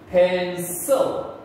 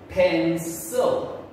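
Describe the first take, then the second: First: The C is said with a soft S sound. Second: The same.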